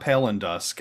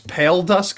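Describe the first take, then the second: First: It is said with an added n sound between words. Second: It is said with no sound between the words. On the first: The speaker calls it wrong. "not Pale and Dusk" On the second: The speaker calls it right. "it's Pale Dusk"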